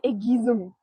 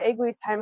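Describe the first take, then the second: First: The name is said with French pronunciation. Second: The name is said with German pronunciation. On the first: "German word, French French pronunciation" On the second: "Which is how you'd say it in German"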